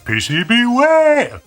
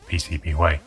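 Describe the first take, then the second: First: The name is said with big, exaggerated energy. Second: The name is said plainly, without emphasis. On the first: The speaker calls it right. "I'm not going to do that every time" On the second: The speaker calls it wrong. "Although he said it wrong, he just said"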